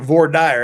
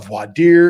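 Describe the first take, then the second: First: It is pronounced in a plain, local way. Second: It is pronounced in a fancy, foreign-sounding way. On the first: It is the local everyday form. "We pronounce it voir dire out in Utah" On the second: It sounds pretentious. "that's foo-foo"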